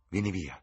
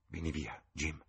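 First: Said in the usual way. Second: Softer, urgent murmur; hushed "vieni via" with "vieni" leaned on. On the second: A narrator's reading. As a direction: pull him away under her breath. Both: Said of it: "mormorò".

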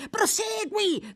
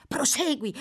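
First: Much higher, slow drawn-out cry. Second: Calling out. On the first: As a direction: stretch the word out, pleading. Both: A narrator's reading.

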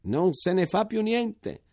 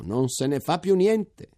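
First: Even higher, slow, falling joyful cry; exclaiming again. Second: High, slow, rising joyful exclamation; exclaiming. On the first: Major repeating the news to soldiers, higher slow falling cry. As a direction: land it hard on fa and let it fall. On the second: Major calling to the troops, high slow joyful exclamation. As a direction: stretch it out, lifting toward più. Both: A narrator's reading. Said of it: "esclamò".

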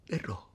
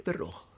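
First: Verrò sussurrato piano; promessa sussurrata. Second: Said in the usual way. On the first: Acted. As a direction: sussurra Verrò come un voto. (Verrò detto in un sussurro)

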